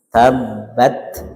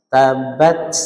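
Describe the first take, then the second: First: The final t ends with a soft breath release. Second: The final t ends with a hissing s-like sound. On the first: The speaker calls it right. "kita upayakan ada nafas yang lepas, namanya hamz" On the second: The speaker calls it wrong. "Kalau bunyi sin sukun berarti tabbat, tabbat, itu kayak ban bocor ya, tidak pas"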